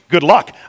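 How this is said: It is said in an offhand, dismissive way. The outcome is left to random chance. "like it's just random"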